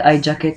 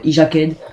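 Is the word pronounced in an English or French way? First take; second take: English; French. First: It is pronounced with English sounds. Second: It is pronounced with French sounds. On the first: "en anglais" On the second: "à la française"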